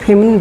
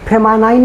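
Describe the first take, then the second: First: The last syllable has a short 'i' vowel. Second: The last syllable has a long 'eye' vowel. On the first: The speaker calls it right. "फेम फेमिन पढ़ेंगे" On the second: The speaker calls it wrong. "फेमानाइन नहीं पढ़ेंगे ना"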